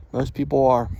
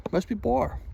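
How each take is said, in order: First: Said in the usual way. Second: Lightly raised tune. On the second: Shown as a demonstration.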